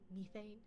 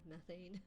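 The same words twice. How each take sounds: First: It is said with a British pronunciation. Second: It is said with a North American pronunciation. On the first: "they're often narrated by someone with a British accent. So they've been saying" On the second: "instead of methane"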